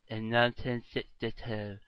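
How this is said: It is said with the tongue hanging out. "say it with your tongue hanging out"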